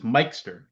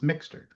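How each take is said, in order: First: The name is said with a 'kes' sound. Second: The name is said with an 'x' sound. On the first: The speaker calls it right. "everybody always mispronounces my last name because it's Mikester" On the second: The speaker calls it wrong. "Everybody always thinks it's Mixter"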